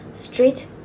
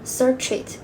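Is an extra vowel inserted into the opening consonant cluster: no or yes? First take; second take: no; yes. First: The opening cluster has no extra vowel. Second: An extra vowel breaks up the opening cluster.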